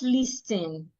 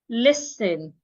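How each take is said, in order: First: The word is said with a T sound. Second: The word is said with no T sound. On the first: The speaker calls it wrong. "not listen" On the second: The speaker calls it right. "We say listen"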